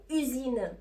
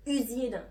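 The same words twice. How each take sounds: The two takes are said the same way.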